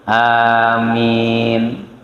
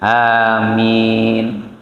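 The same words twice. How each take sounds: The two takes are said the same way.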